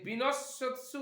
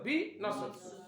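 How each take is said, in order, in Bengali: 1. শব্দটি বিরতি ছাড়া এক টানে বলা হয়। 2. প্রথম অক্ষরের পরে একটু থামা হয়।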